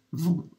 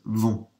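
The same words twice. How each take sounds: First: Vont squeaked much higher; squeaky voice. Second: Said in the usual way. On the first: Real, not acted. Teacher's voice squeaks on vont mid-lesson. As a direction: vont in an accidental high squeak. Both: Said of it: "Oh, squeaky voice".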